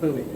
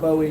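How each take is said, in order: First: The first syllable sounds like 'boo'. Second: The first syllable sounds like 'boh'. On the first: The speaker calls it right. "it's buoy" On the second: The speaker calls it wrong. "It's not Bowie"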